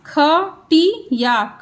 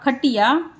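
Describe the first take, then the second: First: Slow teacher model; slow drawn-out. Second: Said in the usual way. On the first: Shown as a demonstration. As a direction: stretch खटिया. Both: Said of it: "teacher drills words".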